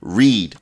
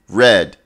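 First: The word does not sound like the colour red. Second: The word sounds like the colour red.

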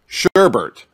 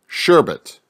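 First: The second syllable has an extra r sound. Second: The second syllable has no r sound. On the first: The speaker calls it wrong. "I'm going to say it wrong first" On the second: The speaker calls it right. "pronounce again as sherbet"

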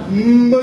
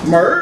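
First: The word ends without an r-coloured sound. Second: The word ends with an r-coloured sound. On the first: It sounds grand and imposing. "听着恢宏大气" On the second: It sounds small and homely. "小门小户的"

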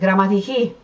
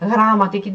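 First: The stress falls on the last syllable. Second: The stress falls before the last syllable. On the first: The speaker calls it right. "sonunda apostrof var ve vurgu orada yapılıyor" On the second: The speaker calls it wrong. "Yani grammatiki demiyoruz"

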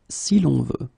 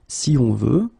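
First: An L sound links si and on. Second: The vowels of si and on meet directly. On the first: The speaker calls it right. "add this L between the two" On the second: The speaker calls it wrong. "it will create what we call a hiatus"

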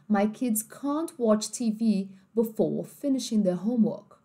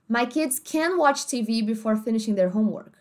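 First: It is spoken in a British English accent. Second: It is spoken in an American English accent. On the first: "uma família britânica viraria pra você e falaria assim" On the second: "Uma família americana ia dizer assim pra você"

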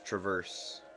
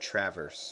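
First: It is said like the verb 'traverse'. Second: It is not said like the verb 'traverse'. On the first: The speaker calls it right. "apparently it should be pronounced Traverse. Because you're traversing the town" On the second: The speaker calls it wrong. "I always pronounced it Traverse"

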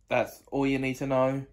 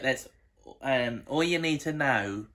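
First: It is spoken in the speaker's normal accent. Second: It is spoken in a put-on Australian accent. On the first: "now I'm going to talk in my normal accent again" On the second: "Now I'm talking in my Australian accent"

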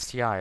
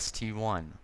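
First: The name ends with the letter sound 'eye'. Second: The name ends with the number word 'one'. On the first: This is a common mistaken name for the tank. The speaker calls it wrong. "A lot of people call it the STI" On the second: This is the tank's actual name. The speaker calls it right. "it's actually the ST-1"

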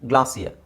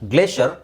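First: The first vowel is an open 'ah' sound. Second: The first vowel is a long 'ay' sound. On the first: "ಇದೊಂದು ಮಾತ್ರ ಗ್ಲಾ ಅಂತ ಆಗುತ್ತೆ" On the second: "ಎರಡು ಥರ ಹೇಳ್ತಾರೆ"

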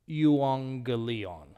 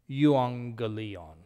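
The two takes are said the same way.

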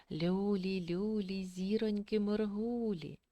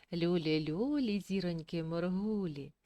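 No difference in how they are said.

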